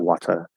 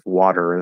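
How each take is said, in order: First: A British accent with the final r dropped. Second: An American accent with a clear final r. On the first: "in standard British English ... they say water" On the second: "instead of water"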